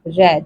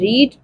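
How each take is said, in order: First: The vowel is short, like in 'red'. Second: The vowel is long, like in 'reed'. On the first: It is the past form of the verb. "Same है spelling में लेकिन pronunciation में different है" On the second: It is the present form of the verb. "Same है spelling में लेकिन pronunciation में different है"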